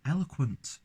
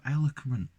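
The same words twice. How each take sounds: First: "eloquent" said higher with a clear kw; corrected pronunciation. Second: "eloquent" fumbled, missing its w sound; tongue-tied slip. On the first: Reviewer fixing own slip, careful higher-pitched "eloquent". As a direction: redo "eloquent" cleanly, sounding the w. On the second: Tipsy reviewer claiming to be classy, tongue-tied "eloquent". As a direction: stumble over "eloquent", swallowing the kw. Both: Real, not acted. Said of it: "I can't speak properly".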